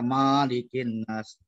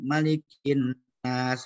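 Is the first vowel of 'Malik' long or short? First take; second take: long; short. First: The first vowel of Malik is long. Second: The first vowel of Malik is short. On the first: The speaker calls it wrong. "salah itu" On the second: The speaker calls it right. "memang pendek tuh bacanya"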